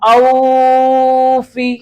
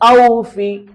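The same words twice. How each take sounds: First: The first vowel is drawn out long. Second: The first vowel is soft and quick. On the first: The speaker calls it wrong. "തെറ്റാണ്" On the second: The speaker calls it right. "മയമായ ശബ്ദത്തിൽ വേഗത്തിൽ വായിക്കണം"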